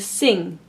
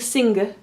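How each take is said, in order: First: The n and g blend into one sound. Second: The n and g are pronounced as separate sounds. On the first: The speaker calls it right. "I'm saying sing" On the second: The speaker calls it wrong. "I'm not pronouncing them separately. I'm not saying sing"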